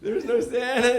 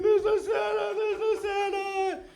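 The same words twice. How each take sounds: First: Lightly voiced parent breaking bad news; mock parental admission; parents confessing. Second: Very high wailing child impression; exaggerated high-pitched tearful whine; mock crying. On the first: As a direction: admit it as the parent, raised pitch, no wailing. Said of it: "And they're like". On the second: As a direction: wail it like a devastated little girl, hammed up. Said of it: "and she's crying".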